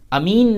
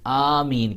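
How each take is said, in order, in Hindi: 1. पहला स्वर छोटा बोला जाता है। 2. पहला स्वर खींचकर लंबा बोला जाता है। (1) "अमीन नहीं कहना" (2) "बल्कि उसे लंबा करना है"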